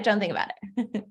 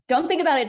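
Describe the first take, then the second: First: Said in the usual way. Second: Higher, louder "Don't think about it" with the weight on think; teasing, pushed-out "Don't think about it"; emphatic command. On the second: Shown as a demonstration.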